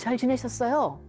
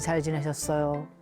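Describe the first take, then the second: First: The voice is raised and bright. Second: The voice is low and flat. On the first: The speaker calls it right. "이거죠" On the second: The speaker calls it wrong. "이런 그 톤보다는 약간 업 시키면서"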